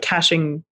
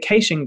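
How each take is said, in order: First: Caching is said with the American pronunciation. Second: Caching is said with the Australian pronunciation. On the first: "instead of caching data" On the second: "we say caching data"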